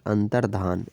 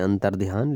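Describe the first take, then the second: First: अंतर्धान with plain धा, no y glide; the word अंतर्धान, dhaan without a y; right form with dh. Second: अंतर्ध्यान with ध्या, a y glide after dh; the word अंतर्ध्यान, dhyaan with a y; wrong form with dhy. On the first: Teacher giving students the correct form, plain धा. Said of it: "अंतर्धान ये सही होता है". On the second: Teacher showing students the common wrong form, ध्या with y. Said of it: "लेकिन वो गलत होता है". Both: Shown as a demonstration.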